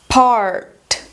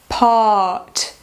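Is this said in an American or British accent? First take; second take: American; British. First: American accent, shorter vowel with the R sounded. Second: British accent, longer vowel with no R sound. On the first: "vou ler em americano primeiro" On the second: "Em britânico"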